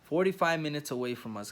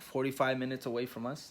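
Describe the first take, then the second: First: "forty-five minutes away from us" stressed on FORTY-FIVE, falling; emphatic confirmation. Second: "forty-five minutes away from us" rising as a question; checking question. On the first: Husband telling viewers the confirmed drive time, emphatic. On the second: Husband checking the drive time with someone nearby, questioning. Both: Real, not acted.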